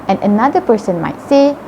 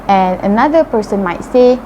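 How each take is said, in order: No difference in how they are said.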